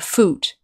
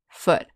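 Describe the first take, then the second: First: The vowel is long, like in moon. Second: The vowel is short and clipped. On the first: The speaker calls it wrong. "We don't say ... foot" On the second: The speaker calls it right. "We say ... foot. The vowel sound is shorter"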